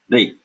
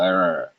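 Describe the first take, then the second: First: An r sound followed by an e-like vowel. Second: A single r-colored vowel like English er. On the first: This is the northern Indian pronunciation. "Ubiquitously throughout northern India, this is pronounced like the Hindi R followed by E matra" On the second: This is the ancient pronunciation. "in ancient times, this was sounded more like an English er sound"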